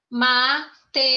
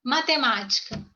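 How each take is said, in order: First: "Matemática" in five separate syllables, ma, te, ma, ti, ca. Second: Said in the usual way. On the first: Shown as a demonstration. Teacher counting syllables for the class, "Matemática" split syllable by syllable. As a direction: split "Matemática" with a clear gap after each syllable. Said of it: "Primeira sílaba". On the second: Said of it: "Vamos lá".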